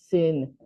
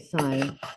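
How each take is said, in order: First: The vowel is short, like in 'pin'. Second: The vowel is long, like in 'pine'. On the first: The speaker calls it wrong. "It's like saying sin. Don't say that" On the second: The speaker calls it right. "Say sine"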